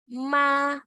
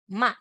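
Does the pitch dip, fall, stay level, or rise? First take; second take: level; fall. First: The pitch stays high and level. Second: The pitch falls sharply through the syllable.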